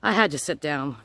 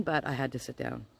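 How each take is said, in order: First: Louder, weighted I had to sit down, stress on had; stunned emphasis. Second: Softer, dropped low: but I had to sit down; quiet repeat. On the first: Telling viewers about the bad news, emphatic stunned stress on had. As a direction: lean hard on had, shaken. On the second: Repeating it to viewers, quietly deflated. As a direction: let it fall away, hushed. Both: Retold or imitated.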